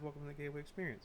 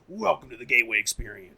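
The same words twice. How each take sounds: First: It is said in a relaxed, casual way. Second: It is said in a hyped, showy way.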